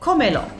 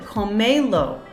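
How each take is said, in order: First: The stress is on the first syllable. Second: The stress is on the second syllable. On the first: "One, two, three" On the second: "if I didn't have this accent, I would have to pronounce it comelo, because the stress naturally falls on the second to last syllable"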